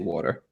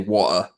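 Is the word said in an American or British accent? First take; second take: American; British. First: It is said in an American accent. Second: It is said in a British accent. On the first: "I say water" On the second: "if I really had my British accent, I would say water"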